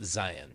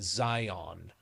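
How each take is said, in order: First: It is said the local way. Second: It is said the outsider way. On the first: The speaker is from the area. The speaker calls it right. "no, no, it's" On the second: The speaker is not from the area. The speaker calls it wrong. "everybody from back east pronounces it Zion"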